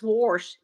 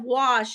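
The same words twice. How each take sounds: First: "wash" with an R put in, like "warsh"; slow "wash" pronounced as "warsh"; added R. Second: Said in the usual way. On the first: Shown as a demonstration. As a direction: say "wash" with an R before the sh. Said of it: "Some people do add a R to it". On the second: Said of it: "instead of wash".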